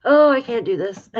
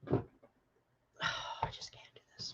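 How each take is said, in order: First: Higher and louder, breaking out; louder outburst. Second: Breathless whisper, barely voiced. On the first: Overwhelmed reader crying out to viewers, louder. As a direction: let it burst out in dismay. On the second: Overwhelmed reader whispering to viewers, hushed. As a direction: whisper it as if it's too much to say. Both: Real, not acted. Overwhelmed reading child's death.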